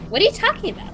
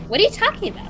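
First: It is said in a put-on character voice. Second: It is said in a put-on character voice.

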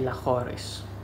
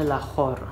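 First: The word ends with an extra -ris syllable. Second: The word ends on the r sound. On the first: The speaker calls it wrong. "όχι Λαχόρης" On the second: The speaker calls it right. "η κανονική προφορά είναι Λαχόρ"

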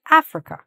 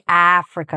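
First: The first vowel is kept short. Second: The first vowel is drawn out long. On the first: "They're just saying Africa" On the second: "I'm saying Africa"

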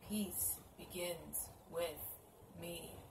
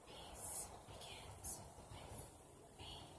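First: It is said at normal volume. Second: It is said quietly.

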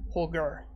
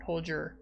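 First: The name is said with a German pronunciation. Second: The name is said with an English pronunciation. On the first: This is how the person himself says his name. The speaker calls it right. "I guess that's how he pronounces it. He's German" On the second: This is not how the person says his name. The speaker calls it wrong. "not Holger"

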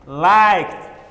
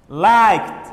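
Both takes have the same delivery.

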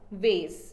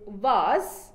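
First: The vowel sounds like 'ay'. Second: The vowel sounds like 'ah'. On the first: This is the American pronunciation. "whereas the American pronounce it as vase" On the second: This is the British pronunciation. "the British pronunciation is vase"

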